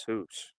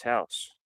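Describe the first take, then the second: First: "house" as HOOSE, Canadian style; mock Canadian accent. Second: Said in the usual way. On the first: Arguing no one says it, mock Canadian accent. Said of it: "no one says hoops". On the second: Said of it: "Everybody says house".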